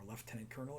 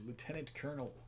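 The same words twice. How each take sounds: First: Lieutenant is said the Canadian way. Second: Lieutenant is said the American way.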